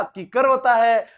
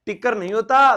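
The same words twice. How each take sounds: First: किकर drawn out slowly with a k start; slow model of kikkar as किकर; correct pronunciation. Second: टिक्कर with ṭ in place of k; teacher quoting dialect टिक्कर; wrong form corrected. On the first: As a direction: teach किकर slowly, k not ṭ. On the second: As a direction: show the mistaken टिक्कर, starting on ṭ. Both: Shown as a demonstration. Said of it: "सही उच्चारण बताना".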